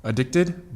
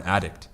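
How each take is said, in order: First: "addicted" as uh-DICT-ed, rising; stress on second syllable. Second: "addict" as AD-dict; stress on first syllable. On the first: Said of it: "you change the emphasis on the syllable". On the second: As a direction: hit AD at the start of "addict". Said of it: "but as a noun". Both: Shown as a demonstration.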